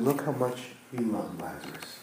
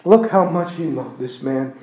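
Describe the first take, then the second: First: Much softer and lower, tender; touched mourners, hushed; hushed awe. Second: Said in the usual way. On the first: Retold or imitated. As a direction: breathe it out softly. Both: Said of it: "around said".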